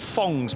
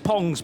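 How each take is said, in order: First: The name begins with an F sound. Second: The name begins with a P sound. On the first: "rather than Fongs" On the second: "the P H just reverts to a, a P sound"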